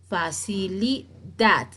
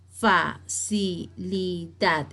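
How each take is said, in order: First: "Facilidad" slowly by syllables, final DAD stronger; stress on last syllable. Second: "facilidad" very slowly as fa, ci, li, dad; evenly spaced syllables in "facilidad"; split into syllables. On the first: Teacher revealing the stressed syllable, "Facilidad" with stress on DAD. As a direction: set off and punch "dad" in "Facilidad". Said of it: "la sílaba que se entona más". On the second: Teacher showing the division, "facilidad" evenly syllable by syllable. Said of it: "Está dividida en sílabas". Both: Shown as a demonstration.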